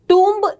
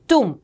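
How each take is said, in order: First: A b sound is pronounced at the end. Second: The word ends in m with no b. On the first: The speaker calls it wrong. "इसे टूम्ब नहीं कहते हैं" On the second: The speaker calls it right. "ब silent रहता है, it is only टूम"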